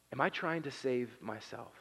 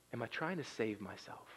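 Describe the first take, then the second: First: "I" leaned on, the question turned inward; stress on I. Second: "trying" leaned on, soft and falling; quiet stress on trying. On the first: Pastor turning the question on himself, stress on "I". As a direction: press on "I" to make it personal. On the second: Pastor asking the church, hushed stress on "trying". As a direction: press on "trying" in a hushed question. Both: Shown as a demonstration.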